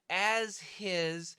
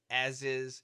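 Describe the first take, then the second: First: The h in 'his' is clearly pronounced. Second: The h in 'his' is dropped and linked. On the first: "We should say as his" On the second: "we say as is"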